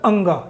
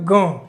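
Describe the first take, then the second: First: The nasal is wrapped in extra vowel sounds. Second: The nasal sound is said on its own. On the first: The speaker calls it wrong. "कुछ लोग बोलते हैं अंगा, ये not अंगा" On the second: The speaker calls it right. "Sound भी एकदम clear आना चाहिए"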